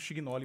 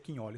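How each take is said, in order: First: The surname is pronounced the Brazilian Portuguese way. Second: The surname is pronounced the Italian way. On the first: "Estamos no Brasil, a gente acaba falando Chignoli mesmo" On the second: "O termo é o correto, é italiano. Então se pronuncia Quinholi"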